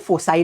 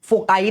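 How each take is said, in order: First: The middle consonant is an s sound. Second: The middle consonant is a k sound. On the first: "आप इसको फोसाई भी बोल सकते हो" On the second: "इसका pronunciation आप फोकाई भी कर सकते हो"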